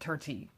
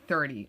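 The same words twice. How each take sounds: First: Thirty is said with an Irish accent. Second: Thirty is said with a standard accent. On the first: It slipped out by accident. "I've caught myself the other day saying" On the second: This is what was intended. "when I meant to say"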